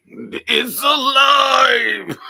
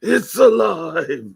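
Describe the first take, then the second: First: Slow, much higher, loud shout; mad scientist. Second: Slow, higher, loud shout; mad scientist. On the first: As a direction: cry out like Frankenstein's doctor. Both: Retold or imitated. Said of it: "They used to give out honey".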